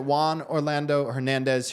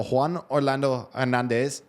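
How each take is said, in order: First: Said in the usual way. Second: A show-off Spanish accent on Juan Orlando Hernandez, Juan as hwan; playful Spanish accent. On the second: Shown as a demonstration. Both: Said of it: "that's my new Spanish, uh, accent".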